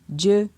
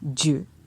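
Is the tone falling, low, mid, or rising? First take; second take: mid; low. First: The syllable has a mid tone. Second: The syllable has a low tone. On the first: "ton moyen" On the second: "Avec un ton bas"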